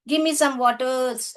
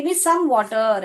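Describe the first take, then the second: First: "waters" with an s sound on the end; wrong plural. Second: "water" with no s on the end, stress on "some"; correct singular. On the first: Teacher showing pupils the wrong form, wrong plural "waters". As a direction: say "waters", ending it in an s. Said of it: "ऐसा नहीं बोलेंगे". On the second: Teacher showing pupils the right form, correct singular "water". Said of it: "ऐसे बोल सकते हैं आप". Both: Shown as a demonstration.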